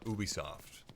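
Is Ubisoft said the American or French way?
French. It is said with a French pronunciation. "In France, where they're based, they call it"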